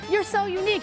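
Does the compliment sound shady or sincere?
sincere. It is said in a plain, sincere tone. The compliment is meant genuinely. "I would have just said"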